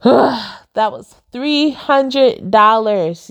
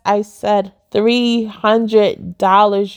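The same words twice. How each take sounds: First: Sighing it out slowly, fed up; weary sigh over the cost; exasperated sigh. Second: "three" punched in "three hundred dollars", said slowly; stress on three. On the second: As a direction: lean hard on "three" and stretch the whole phrase. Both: Real, not acted.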